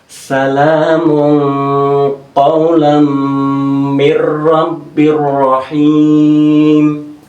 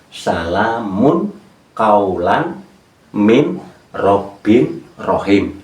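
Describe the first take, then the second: First: Final n sounds merge into the following consonants. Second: Each word's final n is pronounced separately. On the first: It is recited aloud together following recitation rules. "Min dadi mir idgham bila hunah" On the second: It is read word by word to find the meaning. "Itu tanpa tajwid untuk mencari makna"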